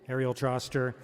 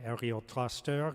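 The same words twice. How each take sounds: First: The name is said with an English accent. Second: The name is said with a French accent.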